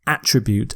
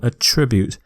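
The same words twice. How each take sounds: First: The stress is on the first syllable. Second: The stress is on the second syllable. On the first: The word is used as a noun. The speaker calls it wrong. "not attribute. Attribute is a noun" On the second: The word is used as a verb. The speaker calls it right. "It's a verb, so I'm going to stress the second syllable"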